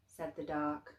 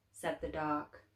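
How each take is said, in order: Both takes have the same delivery.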